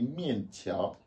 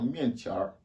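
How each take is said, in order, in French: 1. Le mot se termine sans son en r. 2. Le mot se termine avec un son en r. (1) "normalement on dit mian tia" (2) "quand tu mets les arhua, tu entends mian tia"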